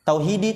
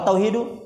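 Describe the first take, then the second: First: The word ends with an 'i' vowel. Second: The word ends with a 'u' vowel. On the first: The word is an appositive to the preceding noun. "Tauhidi tadi badal" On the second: The word is the predicate of an omitted subject. "Kalau tauhidu khabar li mubtada mahdzuf"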